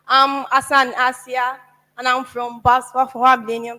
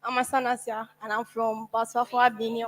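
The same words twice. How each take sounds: First: Louder. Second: Soft, nervous mumble, barely carrying; too quiet. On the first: Student repeating her name for the host, louder. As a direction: say it again so everyone hears. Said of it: "Yes, your name". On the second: Nervous student introducing herself to the hall, too softly. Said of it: "If I spoke like this, would you have heard". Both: Real, not acted.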